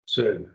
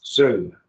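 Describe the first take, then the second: First: Said in the usual way. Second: SUE hit louder, with a falling tone; extra emphasis. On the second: Shown as a demonstration. Teacher showing the accented form, Sue emphasized. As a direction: lean harder on Sue. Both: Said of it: "little more emphasis on it".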